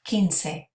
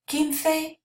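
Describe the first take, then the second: First: The c is said with an S sound. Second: The c is said without an S sound. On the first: "You can also say quince" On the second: "So I say quince"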